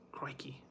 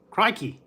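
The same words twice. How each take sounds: First: Crikey breathed with no voice, very soft, Aussie style; Aussie accent, Crikey whispered barely audible. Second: Put-on Crikey called out higher and louder in an Aussie accent; Aussie accent, exclamation Crikey shouted up high. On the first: Pretend. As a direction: whisper Crikey as if not to spook the animal. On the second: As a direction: belt out Crikey like a khaki-clad Aussie croc hunter. Aussie croc-hunter impression.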